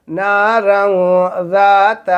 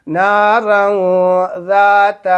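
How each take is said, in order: Both takes have the same delivery.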